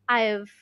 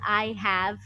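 First: The words are contracted into one syllable. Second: Both words are said in full. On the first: "Instead, you say" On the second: "the entire expression"

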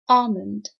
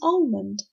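First: The L is silent. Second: The L is pronounced. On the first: The speaker calls it right. "You have to say almond" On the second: The speaker calls it wrong. "some people think it's almond, but this is wrong"

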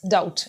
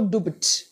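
First: The word is said with no b sound. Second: The word is said with a b sound. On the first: The speaker calls it right. "B is silent" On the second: The speaker calls it wrong. "not dubut"

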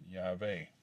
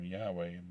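First: The middle consonant is a V sound. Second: The middle consonant is a W sound. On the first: "they pronounced it Yahweh" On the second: "the German critics spelled the name Yahweh"

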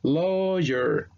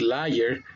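First: The first vowel is said like an 'o'. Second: The first vowel is said like an 'a'. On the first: The speaker calls it right. "el sonido para la A en inglés, el sonido fonético es el sonido de una O" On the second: The speaker calls it wrong. "uno ve la A y uno intenta decir liar, está incorrectamente"

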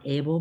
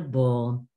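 First: The suffix is said with an 'ay' vowel. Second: The suffix is said with an 'uh' vowel. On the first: The speaker calls it wrong. "It's Not" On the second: The speaker calls it right.

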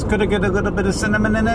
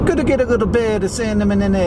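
First: The line is said in a plain voice. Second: The line is said in a rapper voice. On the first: The speaker calls it wrong. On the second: The speaker calls it right.

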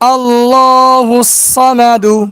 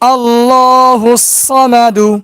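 No difference in how they are said.

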